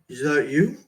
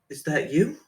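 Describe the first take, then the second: First: It is said in a deeper voice. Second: It is said in a higher voice.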